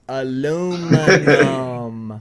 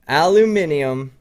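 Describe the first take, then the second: First: It is said with four syllables, ending -num. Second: It is said with five syllables, ending -nium. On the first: "Listen to me say it" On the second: "I will moving forward pronounce it aluminium"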